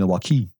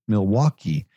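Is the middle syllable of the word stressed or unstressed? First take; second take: unstressed; stressed. First: The middle syllable is not stressed. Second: The middle syllable carries the stress. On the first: The speaker calls it wrong. "She kept saying Milwaukee" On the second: The speaker calls it right. "Just put the accent on the wa"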